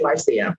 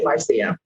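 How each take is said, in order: First: The name is said the Caribbean way. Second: The name is said the Caribbean way.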